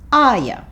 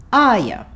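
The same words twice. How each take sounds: First: The word 'you' is reduced to 'ya'. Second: The same.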